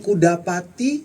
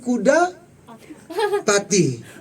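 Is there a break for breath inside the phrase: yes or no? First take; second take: no; yes. First: The phrase is said in one unbroken breath. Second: A breath break splits the phrase in the middle. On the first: The speaker calls it right. "Mau ngomong kuda pati" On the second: The speaker calls it wrong. "karena habis nafasnya tengah jalan jadi kuda pati"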